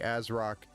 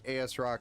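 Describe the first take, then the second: First: The start is said as one short word. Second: The start is said as two separate letters. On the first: "Some people say As Rock" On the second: "I always say A S Rock"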